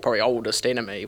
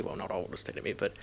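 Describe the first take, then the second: First: Said in the usual way. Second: Quiet whispered aside; muttered correction. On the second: Real, not acted. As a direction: drop to a whisper to correct yourself.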